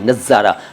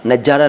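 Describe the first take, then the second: First: The middle consonant is a z sound. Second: The middle consonant is a j sound. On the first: The speaker calls it right. "नुक्ता जहाँ जहाँ आया है उसको कितना clear बोला है" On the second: The speaker calls it wrong. "नज़ारा नहीं"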